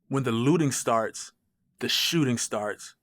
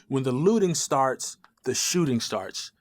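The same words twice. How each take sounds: First: It is said in a hostile, aggressive tone. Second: It is said in a friendly, polite tone. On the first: The message is meant as contempt. The speaker calls it right. "That feels right. That sounds right" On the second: The message is meant kindly. The speaker calls it wrong. "That that doesn't sound right"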